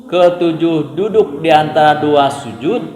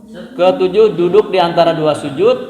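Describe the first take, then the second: The two takes are said the same way.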